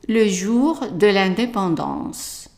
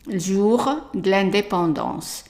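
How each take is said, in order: First: The weak e vowels are fully pronounced. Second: The weak e vowels are dropped, running together. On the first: This is the formal way, as taught in school. "the formal good French is" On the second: This is how people speak in everyday life. "French of everyday life, we say jour de l'indépendance"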